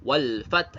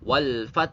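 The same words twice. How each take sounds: No difference in how they are said.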